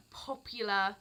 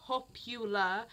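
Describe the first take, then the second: No difference in how they are said.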